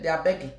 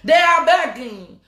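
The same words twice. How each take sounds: First: Said in the usual way. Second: "They are begging" slow and louder, "are" leaned on; emphatic. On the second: Shown as a demonstration. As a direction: drag it out, hit "are" hard.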